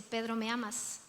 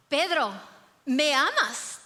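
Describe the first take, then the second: First: Pedro, ¿me amas? asked softly and low; soft gentle question. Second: Pedro, ¿me amas? louder and more insistent; firmer third asking. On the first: Jesus gently asking Peter at the shore, soft and quiet. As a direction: ask it quietly, almost tenderly. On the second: Jesus asking Peter the third time, firmer and louder. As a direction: press the question harder this time. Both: Acted.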